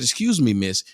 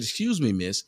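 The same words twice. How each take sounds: First: The phrase is said at a louder volume. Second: The phrase is said at a softer volume.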